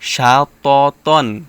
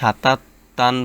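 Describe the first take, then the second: First: The word begins with an 'sh' sound. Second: The word begins with a plain 's' sound. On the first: The speaker calls it right. "বলতে হবে কি শা ত তন" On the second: The speaker calls it wrong. "এখানে অনেকে সাতা তান বলে ... সাতা বলা যাবে না"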